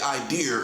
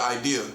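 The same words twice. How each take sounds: First: The word ends with an added R sound. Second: The word ends without any R sound. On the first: "old people say idea" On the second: "instead of idea"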